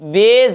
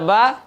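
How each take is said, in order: First: The vowel is a mid 'e' sound. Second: The vowel is an open 'aa' sound. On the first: The speaker calls it right. "मजहूल पढ़ेंगे" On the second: The speaker calls it wrong. "बा इसको नहीं पढ़ेंगे"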